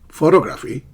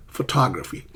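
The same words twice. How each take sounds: First: "photography" as PHO-to-graphy, loud; mis-stressed PHO-to-GRAPHY as a bad example; wrong first-syllable stress. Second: "photography" as pho-TOG-raphy, falling; careful pho-TOG-raphy; correct second-syllable stress. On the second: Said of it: "not photography". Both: Shown as a demonstration.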